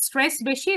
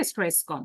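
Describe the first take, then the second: First: "stress বেশি" said with fuller emphasis; more stress. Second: "stress কম" dropped lower and softer; less stress. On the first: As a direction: give "stress বেশি" a firm, raised push. ("Stress বেশি" জোর দিয়ে বলা) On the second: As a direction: let "stress কম" fall away, low and soft. ("Stress কম" নিচু, নরম গলায়, কম জোরে) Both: Shown as a demonstration. Demonstrating more versus less stress.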